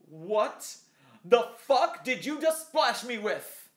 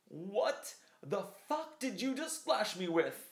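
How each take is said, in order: First: The outraged line is shouted very loudly. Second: The outraged line is delivered at a quieter volume. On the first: "good emotion, way too loud for the microphone" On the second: "trying to be quiet but outraged at the same time"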